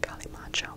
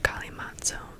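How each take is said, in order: First: The middle consonant is a 'ch' sound. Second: The middle consonant is a 'ts' sound. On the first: The speaker calls it right. "but it's pronounced Kalimacho" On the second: The speaker calls it wrong. "spelled and pronounced Kalimatsu"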